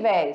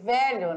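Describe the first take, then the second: First: The word is reduced to one syllable, véi. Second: The word is said in full, with two syllables. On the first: This is the popular, informal variant. "E a pronúncia é véi, né? Véi, escuta aí" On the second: This is the standard form of the word. "que o pessoal usa para dizer o quê? Velho"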